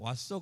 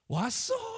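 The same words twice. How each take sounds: First: It is said flatly, without enthusiasm. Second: It is said with lively, delighted enthusiasm. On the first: The greeter barely cares that someone came home. The speaker calls it wrong. "그게 아니라" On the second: The greeter is genuinely glad someone came home. The speaker calls it right. "이 정도로 한번 해주셔고"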